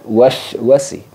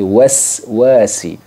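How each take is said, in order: First: The first syllable ends in a 'sh' sound. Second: The first syllable ends in a hissing 's'. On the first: The speaker calls it wrong. "bukan wash wasi" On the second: The speaker calls it right. "tapi was wasi"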